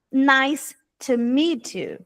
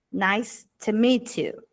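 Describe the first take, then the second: First: "nice to meet you" said slowly, each word clear; slow model phrase. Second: "Nice to meet you" with the "to" said softly. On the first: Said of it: "Não será to". (pronúncia lenta e clara) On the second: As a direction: ease off the t in "to". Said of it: "É mais suave". ("to" suave e leve) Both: Shown as a demonstration.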